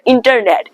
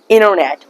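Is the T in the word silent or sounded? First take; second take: sounded; silent. First: The T after the N is clearly pronounced. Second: The T is dropped, leaving a double N sound. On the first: The speaker calls it wrong. "don't pronounce the internet" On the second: The speaker calls it right. "Try to pronounce internet"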